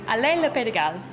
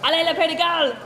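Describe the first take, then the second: First: It is said with ordinary, modest energy. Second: It is said with more force and energy.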